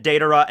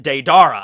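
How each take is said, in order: First: Deidara said DAY-duh-ruh; Deidara with a light ending after DAY; correct pronunciation. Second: Deidara said day-DAR-uh; Deidara with a long stressed "dar"; habitual mispronunciation. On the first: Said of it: "they pronounced it Deidara as well". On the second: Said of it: "I still kept pronouncing it". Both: Shown as a demonstration.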